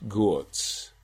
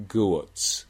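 No difference in how they are said.

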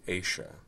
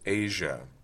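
First: The middle consonant is unvoiced, a sh sound. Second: The middle consonant is voiced, a zh sound. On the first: "but for some speakers is unvoiced" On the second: "which for me is voiced"

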